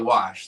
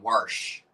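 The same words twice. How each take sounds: First: It is said in a standard accent. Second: It is said in a Maryland accent. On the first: "they won't say wash" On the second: "some people in Maryland, like depending on where you are in Maryland, will say wash"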